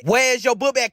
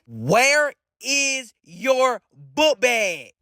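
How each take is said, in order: First: Said in the usual way. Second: Very slow, word-by-word interrogation; slow, deliberate questioning. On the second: Acted. Suspicious cousin asking again about the book bag, slow and deliberate. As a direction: draw out each word with pauses between.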